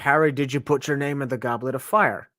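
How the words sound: It is asked in a calm, quiet voice.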